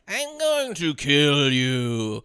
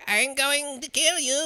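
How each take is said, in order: First: The voice is low-pitched. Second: The voice is high-pitched. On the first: "he like turns the pitch down" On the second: "there's a high-pitched voice"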